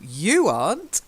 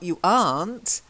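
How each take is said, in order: First: The stress falls on the word you. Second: The stress falls on the word aren't. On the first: The speaker calls it right. "So it would be stressed on the you" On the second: The speaker calls it wrong. "Not you aren't"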